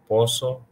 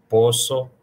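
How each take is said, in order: Both takes have the same delivery.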